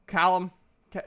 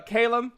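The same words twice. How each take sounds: First: "Callum" said CAL-um, with a short a as in cat; "Callum" pronounced CAL-lum, the wrong guess. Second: "Calum" said KAY-lum, with the long a of day; "Calum" corrected to KAY-lum. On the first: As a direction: open the first vowel of "Callum" like cat. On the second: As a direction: stretch the first vowel of "Calum" into an ay sound. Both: Real, not acted. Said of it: "I couldn't remember if it was Callum or Calum".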